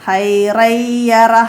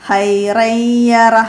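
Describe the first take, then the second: Both takes have the same delivery.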